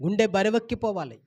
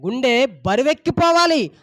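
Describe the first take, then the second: First: Said in the usual way. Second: గుండె బరువెక్కిపోవాలి slower and louder, leaning on బరువెక్కిపోవాలి; slow down and press each word; preacher repeating గుండె బరువెక్కిపోవాలి with weight; emphatic repeat. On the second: Shown as a demonstration.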